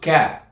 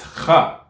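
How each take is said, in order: First: It starts with a plain, hard k sound. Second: It starts with a raspy, vibrating kh sound. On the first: The speaker calls it wrong. "it's not ka" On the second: The speaker calls it right. "it's kha"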